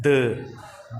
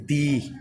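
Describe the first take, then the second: First: द with a short schwa, "dhuh"; weakest form. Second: दी with a clear "ee" vowel; stronger form. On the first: Teacher names the weakest form of "the", द as "dhuh". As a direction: say "the" as a reduced द. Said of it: "एक सबसे वीक होती है". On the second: Teacher explains the stronger form of "the", दी with an "ee". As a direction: say "the" as दी, "dhee". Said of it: "थोड़ी सी strong जो होती है". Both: Shown as a demonstration.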